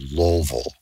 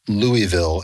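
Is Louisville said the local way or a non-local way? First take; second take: local; non-local. First: Louisville is said with the local accent. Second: Louisville is said without the local accent. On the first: This is how local people say it. "is called" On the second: This is the speaker's own adopted way of saying it. "as I pronounce it"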